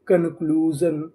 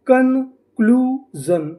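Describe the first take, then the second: First: Said in the usual way. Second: Slow and higher, stretched out with a rise; slow blended word. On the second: Shown as a demonstration. Teacher to students, blending the syllables slowly. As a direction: draw the whole word out. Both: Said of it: "तो हमारी meaning क्या बनी?".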